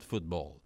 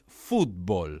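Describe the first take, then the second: First: It is said with an English accent. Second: It is said with an exaggerated Spanish accent. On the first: "not football" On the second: "I'm exaggerating my Spanish pronunciation"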